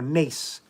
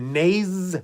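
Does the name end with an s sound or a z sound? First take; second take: s sound; z sound. First: The name ends with an s sound. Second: The name ends with a z sound.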